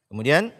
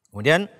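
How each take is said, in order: No difference in how they are said.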